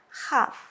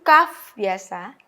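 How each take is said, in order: First: It starts with a raspy kh sound. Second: It starts with a hard k sound. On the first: The letter has no dagesh dot. "tanpa dagesh dibaca dengan khaf" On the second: The letter carries a dagesh dot. "dengan dagesh itu kaf biasa"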